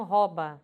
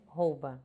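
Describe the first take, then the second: First: "rouba" dito róba; pronúncia popular errada. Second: "rouba" dito rôu-ba; pronúncia correta. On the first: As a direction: diga "rouba" com O aberto, sem U. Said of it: "as pessoas pronunciam". ("rouba" reduzido a róba) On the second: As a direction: feche o O de "rouba" e marque o U. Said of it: "e a pronúncia é". ("rouba" com ditongo OU claro) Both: Shown as a demonstration.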